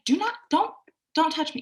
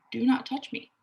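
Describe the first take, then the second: First: High, forceful do not touch me; firm no. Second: Steady, unforced do not touch me; calm boundary. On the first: Client telling the grabby man off, forceful and high. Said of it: "use your voice, and say". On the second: Client calmly telling the grabby man not to touch her. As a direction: say it plainly, without aggression. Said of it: "You don't have to be aggressive about it". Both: Shown as a demonstration.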